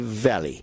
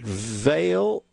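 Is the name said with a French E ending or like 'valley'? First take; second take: valley; French E. First: The name sounds like the English word valley. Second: The name ends in a French-style E sound. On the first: "I've heard people say Valley" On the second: "as if it had a French E at the end"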